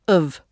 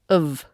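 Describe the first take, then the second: First: The vowel is reduced and quickly pronounced. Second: The vowel is reduced and quickly pronounced.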